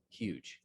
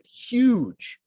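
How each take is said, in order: First: The word is said flat and small. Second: The word is said big and expansive. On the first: The speaker calls it wrong. "instead of" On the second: The speaker calls it right. "it should be big, grand"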